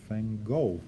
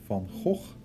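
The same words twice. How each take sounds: First: It has an English pronunciation without throaty sounds. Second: It has a Dutch pronunciation with throaty sounds. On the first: This is how most other people say it. "people like to call him" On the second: This is how people from his own country say it. "that's how we uh, pronounce uh, his last name"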